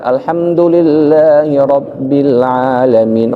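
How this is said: The word rabbil is said on a low pitch. The speaker calls it right. "Robnya harus harus rendah"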